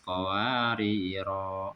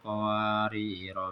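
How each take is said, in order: First: The final vowel is drawn out long at a stop. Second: The final vowel is short, running into the next word. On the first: The reading stops on this word. "Kalau kita wakofkan panjang" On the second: The reading continues without stopping. "Tapi kalau diwasolkan dibaca pendek"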